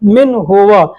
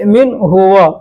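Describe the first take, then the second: First: The pronoun is said apart as full 'huwa'. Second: The same.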